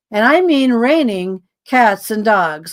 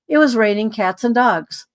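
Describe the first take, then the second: First: "raining cats and dogs" drawn out slowly, each word leaned on; slow emphatic repeat. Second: Said in the usual way. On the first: Shown as a demonstration.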